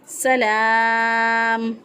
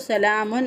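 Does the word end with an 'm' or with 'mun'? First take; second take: m; mun. First: The word ends with a plain 'm' sound. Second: The word ends with a 'mun' sound. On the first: The reader stops on this word. "अगर बकफ करेंगे यहाँ पे तो यहाँ पे पढ़ेंगे सलाम" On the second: It is joined to the next words. "मिला के पढ़ेंगे तो सलामुन"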